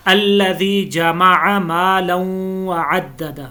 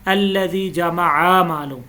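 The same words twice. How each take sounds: First: जमअ मालन with the zabar kept short, not stretched; जमअ said with a short vowel. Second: जमअ said with the vowel drawn long like khari zabar; जमअ with a wrongly lengthened vowel; stretched zabar, wrong. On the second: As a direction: drag out the आ in जमअ. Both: Shown as a demonstration. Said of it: "हमने ऐसे नहीं पढ़ना".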